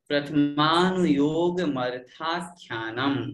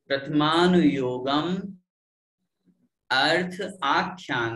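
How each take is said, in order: First: The words are run together into one unit. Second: The words are split apart into separate parts.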